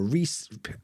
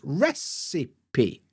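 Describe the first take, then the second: First: The word is said in an odd, made-up way. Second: The word is said the usual dictionary way. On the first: The speaker calls it wrong. "whatever weird pronunciation of this word" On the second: The speaker calls it right. "if you look at the transcript, you can see that it's recipe"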